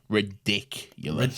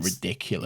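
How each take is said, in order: First: The word is said with strong emphasis. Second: The word is said with mild emphasis. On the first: "I like that you put more emphasis on it" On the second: "You didn't get it the first time"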